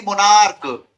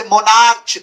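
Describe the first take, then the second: First: मोनार्क ending in a hard k; correct k reading. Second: मोनार्च ending in ch as in church; wrong ch reading. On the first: Teacher correcting the misreading of monarch, hard k. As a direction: finish मोनार्क on k, without any ch. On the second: Teacher showing the misreading of monarch, wrong ch. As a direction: say मोनार्च with a final ch sound. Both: Shown as a demonstration. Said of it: "मोनार्च नहीं मोनार्क".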